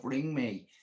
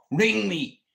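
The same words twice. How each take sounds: First: Said in the usual way. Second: Insistent call out. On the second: Real, not acted. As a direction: ring me, said louder and higher, insisting. Pleading repeated offer to call.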